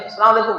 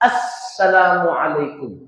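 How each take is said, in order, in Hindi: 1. यह जल्दी में बोला जाता है, अक्षर आपस में घुल जाते हैं। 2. हर अक्षर साफ़ है, 'as' पर ज़ोर है। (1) "नॉर्मली या जल्दबाजी में" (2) "अस का जो लफ्ज है इस पे खास प्रेशर डालना, अच्छी अदायगी के साथ"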